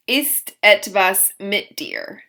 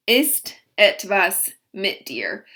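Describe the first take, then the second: No difference in how they are said.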